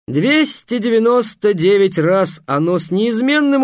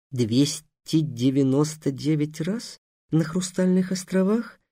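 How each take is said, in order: First: Loud, high and slow showman boast; booming circus ringmaster. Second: Softer, slow incredulous rasp; hoarse disbelief. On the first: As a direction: proclaim the number grandly. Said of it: "торжественно сказал". (громкое торжественное хвастовство) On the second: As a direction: repeat it quietly, not believing it. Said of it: "просипел Гавар". (сиплое тихое недоверие) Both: Acted.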